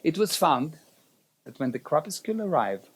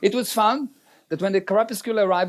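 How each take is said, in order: First: It is spoken at a noticeably slower pace. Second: It is spoken at a normal, quicker pace.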